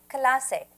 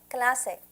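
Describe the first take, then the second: No difference in how they are said.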